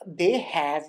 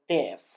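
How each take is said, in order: First: Both words are said fully and separately. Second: The words are joined into one short syllable. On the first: "instead of saying" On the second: "you can say"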